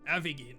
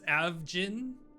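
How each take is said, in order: First: The name is said in a Japanese style. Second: The name is said in an English style. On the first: "In in Japanese, they say Avigin" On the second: "so in English, it's Avjin"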